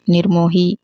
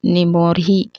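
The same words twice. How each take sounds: First: निर्मोही said as "nirmohi", louder; louder "nir-mo-hi" for निर्मोही; correct pronunciation. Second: निमोही said without the r after ni, louder; louder निमोही, no r before the m; wrong pronunciation. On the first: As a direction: sound the r before m in निर्मोही. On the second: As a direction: open निमोही with a bare "ni". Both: Shown as a demonstration. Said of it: "नहीं होता".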